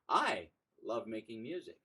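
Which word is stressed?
I. The word "I" carries the stress.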